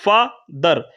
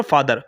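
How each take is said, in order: First: father broken as फा, pause, दर; split into syllables. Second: Said in the usual way. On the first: Shown as a demonstration. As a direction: say father in two separate beats, gap after फा. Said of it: "आपने बोला पहले फा". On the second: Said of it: "आपने कोई break नहीं लिया".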